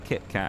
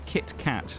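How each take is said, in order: First: The T sounds are soft and not emphasized. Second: The T sounds are strongly and crisply pronounced. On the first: It sounds casual and ordinary. "Versus, oh, I'll just have a Kit Kat, innit?" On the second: It sounds posh. "put emphasis on the T ... makes it sound very posh"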